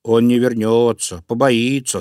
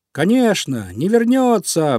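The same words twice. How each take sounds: First: Lightly voiced bear, firm and unhurried; a hint of a sturdy bear cub; little bear. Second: High, eager agreement; emphatic high cheer, drawn out at the end; animals chiming in. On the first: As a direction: reassure plainly, like a small bear. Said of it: "сказал Мишка-медвежушка". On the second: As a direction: chime in gladly like a crowd of small animals. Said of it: "поддержали его звери и птички". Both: A narrator's reading.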